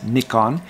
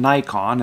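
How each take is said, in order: First: It is pronounced the Commonwealth way. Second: It is pronounced the American way. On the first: "in the, I guess the Commonwealth countries, the preferred pronunciation is" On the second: "in America, we use the expression"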